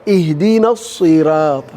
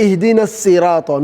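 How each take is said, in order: First: اهدنا الصراط with a heavy emphatic ص, voice lower; right pronunciation. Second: Quick اهدنا الصراط with a light plain s in الصراط; wrong pronunciation. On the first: Teacher shows students the right way, heavy and lower. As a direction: weigh down the ص in الصراط. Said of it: "You have to pronounce your sword". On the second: Teacher shows students the wrong way, fast and light. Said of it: "You don't say". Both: Shown as a demonstration.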